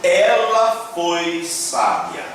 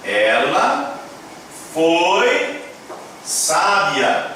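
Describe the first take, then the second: First: Slow, careful read-aloud. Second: Long pauses between each word; halting, one word at a time. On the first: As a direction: read each word slowly. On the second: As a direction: space the words apart for learners. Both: Shown as a demonstration. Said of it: "está escrito".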